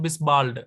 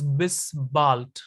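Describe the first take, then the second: First: The final letter of bald sounds like D. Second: The final letter of bald sounds like T. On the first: The speaker calls it wrong. "It's not bis bald" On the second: The speaker calls it right. "Final D is pronounced as T. So it is bis bald"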